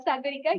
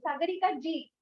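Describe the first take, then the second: First: "Sagarika" said bare, without ji; just "Sagarika", rising at the end; plain Sagarika. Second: "Sagarika ji" said with the respectful ji added. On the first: Showing the wrong form: plain "Sagarika" without ji. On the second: Correcting the host: "Sagarika ji", not plain Sagarika. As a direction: say "Sagarika ji", stressing SA. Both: Shown as a demonstration. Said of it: "He used to call me Sagarika ji".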